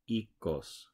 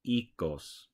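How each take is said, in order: First: The first vowel sounds like 'ee' in seed. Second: The same.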